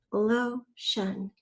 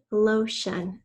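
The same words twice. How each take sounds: First: "Lotion" parted into two beats; syllable by syllable. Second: Said in the usual way. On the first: Shown as a demonstration. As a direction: pause before the "shun" of "Lotion". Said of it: "The second syllable is". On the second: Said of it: "First, say the whole word".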